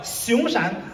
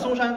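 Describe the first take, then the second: First: It is said with a Henan accent as 'Xiongshan'. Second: It is said in standard Mandarin as 'Songshan'. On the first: "我河南人，我们河南台转播中央台那个节目，他就口音就变了" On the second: "嵩山不叫嵩山"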